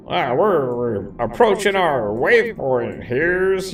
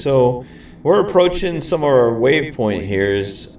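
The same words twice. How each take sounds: First: Higher, slow cowboy twang. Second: Said in the usual way. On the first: Pretend. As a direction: play it up like a cowboy. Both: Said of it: "I already sound like a cowboy".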